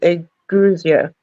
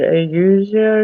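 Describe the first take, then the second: First: The word is said with a G sound. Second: The word is said without a G sound. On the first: The speaker calls it right. "I think it's Aguzia that you pronounce the G" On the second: The speaker calls it wrong. "I don't know how he pronounced it"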